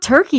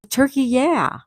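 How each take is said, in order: First: The name is said like the English bird word. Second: The name ends with an added 'yeh' syllable. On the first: The speaker calls it wrong. "it's not turkey" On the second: The speaker calls it right.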